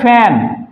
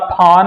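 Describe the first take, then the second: First: The vowel is a short front 'a' sound. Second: The vowel is a long open 'ah' sound. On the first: The speaker calls it right. "यहां पे पढ़ते हैं ए" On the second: The speaker calls it wrong. "ना फान होगा"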